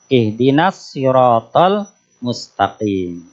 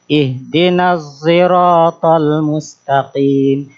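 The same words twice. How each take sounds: First: The s in sirat is a plain s. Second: The s in sirat blends toward z. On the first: "membacanya dengan sin" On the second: "suara gabungan antara sod dan zai"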